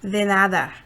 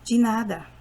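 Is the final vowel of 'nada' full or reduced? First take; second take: full; reduced. First: The final vowel is a full open 'a'. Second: The final vowel is a reduced schwa. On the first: This is how Spanish speakers say it. "like Spanish" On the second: This is how Portuguese speakers say it. "in Portuguese, we say"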